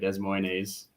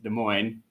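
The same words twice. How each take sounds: First: It is said the way the letters look. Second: It is said the local way, not as spelled. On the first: The speaker calls it wrong. "even though it looks like" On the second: The speaker calls it right. "the proper pronunciation is"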